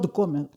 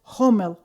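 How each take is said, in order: First: The name begins with a hard g sound. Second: The name begins with a breathy h sound. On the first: The speaker calls it wrong. "not Gomel" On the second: The speaker calls it right. "English word Homel"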